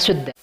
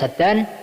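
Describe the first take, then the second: First: The first vowel is a rounded u sound. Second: The first vowel is an open a sound. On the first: "wa dhammiha" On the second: "Bifathis sin"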